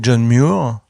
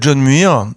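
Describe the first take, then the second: First: The name is said with an English pronunciation. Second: The name is said with a French pronunciation. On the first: "en anglais, ça fait John Muir" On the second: "je vais le prononcer bêtement à la française"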